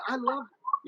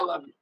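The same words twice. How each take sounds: First: It sounds warm and sincere. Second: It sounds offhand and insincere. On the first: The listener will believe the words. The speaker calls it right. "and believe it" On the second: The listener will not believe the words. The speaker calls it wrong. "and they won't believe you"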